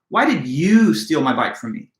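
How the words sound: The word "you" carries strong stress. "the accent or emphasis is placed on the word you"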